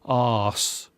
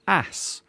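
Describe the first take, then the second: First: It is said with a long 'father' vowel. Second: It is said with a short 'cat' vowel.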